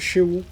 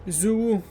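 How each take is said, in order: First: The name begins with a 'sh' sound. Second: The name begins with a 'z' sound. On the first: The speaker calls it right. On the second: The speaker calls it wrong.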